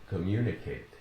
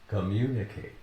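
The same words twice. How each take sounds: No difference in how they are said.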